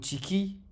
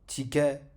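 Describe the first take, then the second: First: The word ends with an i vowel after k. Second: The word ends with an a vowel after k.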